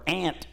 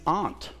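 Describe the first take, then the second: First: "aunt" said like "ant", as in the South; "aunt" with the short a of "cat"; Southern pronunciation. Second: Said in the usual way. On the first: Shown as a demonstration. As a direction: say "aunt" to rhyme with "pant". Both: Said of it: "as they say in the South".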